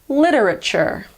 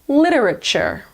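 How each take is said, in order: The two takes are said the same way.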